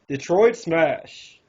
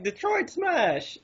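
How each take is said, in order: First: It is said in a lower, deeper voice. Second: It is said in a higher-pitched voice.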